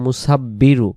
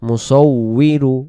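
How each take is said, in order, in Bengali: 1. মাঝের ব্যঞ্জনটি দ্বিত্ব করা ব-ধ্বনি। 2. মাঝের ব্যঞ্জনটি ওয়-ধ্বনি। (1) "অনেকে আমরা বলি মুসাব্বিরু, পুরাটাই ভুল" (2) "ওয়াও জের উই"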